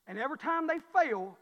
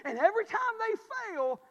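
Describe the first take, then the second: First: Said in the usual way. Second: Preaching climax, louder and higher; climactic repeat. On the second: Shown as a demonstration. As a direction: push the line to a peak. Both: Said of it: "repeated with rising force".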